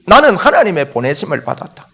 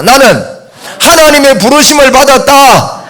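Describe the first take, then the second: First: Said in the usual way. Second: High, loud lead for repetition; loud declaration. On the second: Shown as a demonstration. Preacher leading the congregation to repeat after him, loud declaration. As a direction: proclaim it for the congregation to echo. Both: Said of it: "한번 따라합시다".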